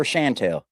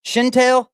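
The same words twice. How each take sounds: First: "Chantel" with first syllable as "shan"; "Chantel" with an a as in "cat" first; name pronunciation variant. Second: "Chantel" with first syllable as "shin"; "Chantel" with a short i in the first syllable; name pronunciation variant. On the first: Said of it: "but never Chantel". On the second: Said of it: "I've heard it pronounced Chantel". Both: Shown as a demonstration.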